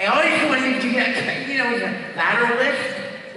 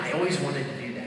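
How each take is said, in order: First: 'lateral lift' hissed through a slushy lateral lisp, higher; spray 'always' and 'lift' sideways in a wet lisp. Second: Said in the usual way. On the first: Shown as a demonstration. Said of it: "give him, like, a lateral lisp".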